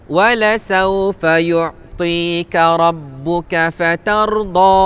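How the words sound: The final vowel is long, running straight on. The reading continues into the next phrase. "kalau kita wasal, kita sambung"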